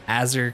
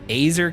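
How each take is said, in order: First: The name does not rhyme with laser. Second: The name rhymes with laser. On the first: "Azur kind of sounds like a real name" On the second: "Azer kind of sounds like laser"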